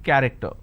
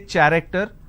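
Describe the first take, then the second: First: It begins with a k sound. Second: It begins with a ch sound. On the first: The speaker calls it right. "it's pronounced as K" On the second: The speaker calls it wrong. "I don't say character"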